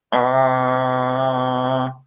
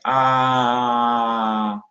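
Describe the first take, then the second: First: A sound made with the mouth fully closed. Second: Open-mouthed A sound. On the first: Phonetics teacher demonstrating, ah with mouth closed. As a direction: hum out Ah through a shut mouth. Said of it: "Com a minha boca completamente fechada". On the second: Phonetics teacher demonstrating, ah with mouth open. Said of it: "com sua boca tá aberta". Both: Shown as a demonstration.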